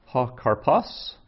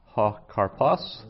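First: "Ha karpas" slow and clear, stress on "ha"; Greek word said slowly. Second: "Ha karpas" repeated slower with a rising end; repeated slowly. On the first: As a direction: pronounce "Ha karpas" slowly with a rise. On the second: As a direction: say "Ha karpas" again slowly for learners. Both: Shown as a demonstration. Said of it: "Some vocabulary".

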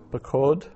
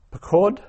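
First: Said in the usual way. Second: Pakod said much higher and louder, rising; emphatic citation. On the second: Shown as a demonstration. Teacher presenting Pakod to Hebrew learners, high loud citation. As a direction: ring out Pakod as the model form. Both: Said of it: "teacher drills Hebrew vocabulary".

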